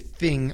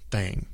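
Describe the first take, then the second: First: The vowel is a short northern 'i' sound. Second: The vowel is a southern drawled 'a' sound. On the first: "We just say thing up here in the north" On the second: "they actually pronounce it like thang sometimes"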